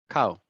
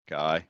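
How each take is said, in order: First: The word is said in a British accent. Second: The word is said in an Irish accent. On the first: "sort of shorter" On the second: "what we say in Ireland"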